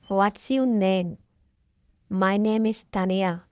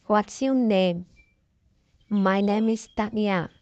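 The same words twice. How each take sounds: The two takes are said the same way.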